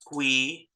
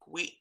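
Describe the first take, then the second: First: It is a plain syllable without a glottal stop. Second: It is a syllable with a glottal stop.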